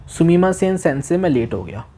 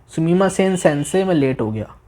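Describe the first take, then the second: Both takes have the same delivery.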